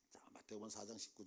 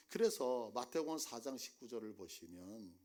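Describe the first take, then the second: First: "마태복음 사 장 십구 절에" whispered, unvoiced and soft. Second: Said in the usual way. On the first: Shown as a demonstration. Preacher pointing the congregation to the verse, whispered. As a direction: hush the verse reference as a secret. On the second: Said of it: "자, 마태복음 사 장 십구 절에".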